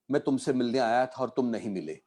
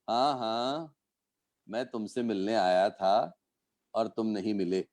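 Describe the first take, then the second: First: It is said plainly, without hidden meaning. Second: It is said knowingly, with sarcastic disbelief.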